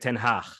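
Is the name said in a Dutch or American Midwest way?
Dutch. The name is said with Dutch pronunciation. This is how the man himself says his name. "he would pronounce his name"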